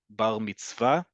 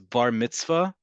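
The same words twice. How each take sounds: First: The stress in mitzvah is on the last syllable. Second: The stress in mitzvah is on the first syllable. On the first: "in modern Hebrew, the emphasis is always, the default is always on the last syllable"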